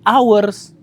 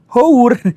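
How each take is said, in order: First: It starts with a vowel; no h sound. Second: It starts with an audible h sound. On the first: "kenapa malah dibacanya eh, jadi hours? Kan H. Kenapa jadi A?" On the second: "Hour itu harusnya dibacanya hour"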